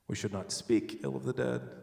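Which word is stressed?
speak. The word 'speak' is stressed. Bad thoughts about them are allowed. "We can think it"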